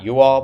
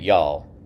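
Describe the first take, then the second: First: It is said as two separate syllables. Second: It is squeezed into one single syllable. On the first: "not you all" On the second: "it's very shortened. It's one syllable"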